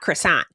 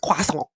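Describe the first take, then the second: First: Croissant is said with an American pronunciation. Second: Croissant is said with a French-style pronunciation. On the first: "I hate how Americans say croissant. It's not croissant" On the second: "it's croissant"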